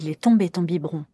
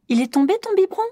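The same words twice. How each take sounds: First: The pitch falls at the end. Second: The pitch rises at the end. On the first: The child's words are confirmed as understood. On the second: The child's words are echoed back as a question.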